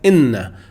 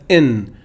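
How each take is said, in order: First: It is said with a doubled n and final vowel. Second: It is said short, with a single n. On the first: "In this variant reading it says inna" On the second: "Notice in this variant reading it says in"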